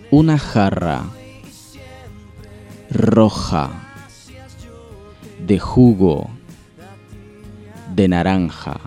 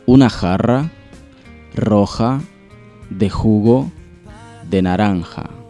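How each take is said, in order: First: The sentence is spoken at a slow pace. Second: The sentence is spoken at a fast pace. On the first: "Ahora vamos un poquito más despacio" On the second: "Ahora vamos un poquito más rápido"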